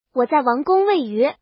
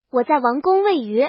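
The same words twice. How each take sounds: The two takes are said the same way.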